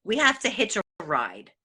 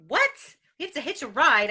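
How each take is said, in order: First: Said in the usual way. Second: Repeating it back in disbelief, pitch up; a stunned "what?"; mock shocked disbelief; incredulous echo. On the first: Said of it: "and she said to me". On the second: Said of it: "Now, I'm like".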